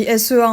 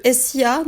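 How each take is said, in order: First: "S E A" spelt out with French letter sounds; French letter names. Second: "S I A" spelt out with English letter sounds; English letter names. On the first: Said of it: "ça s'écrit S E A en français". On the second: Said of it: "là ça s'écrit S E A en français". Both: Shown as a demonstration.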